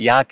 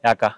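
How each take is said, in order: First: The word ends with an 'e' vowel. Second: The word ends with an 'a' vowel. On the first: This is the ordinary standard form. "ಈಗ ನಮ್ಗೆ ಈಗ ನಾವು ಆ, ಯಾಕೆ ಅಂತ ಕರಿತೀವಿ" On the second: This is the local village dialect form. "ಅಲ್ಲಿ ನಮ್ಮಲ್ಲಿ ಯಾಕ"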